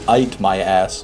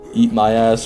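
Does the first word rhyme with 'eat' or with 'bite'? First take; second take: bite; eat. First: The first word's vowel sounds like 'bite'. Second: The first word's vowel sounds like 'eat'. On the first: "if it was spelt like that, really it would be" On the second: "if you pronounce it like the end of elite"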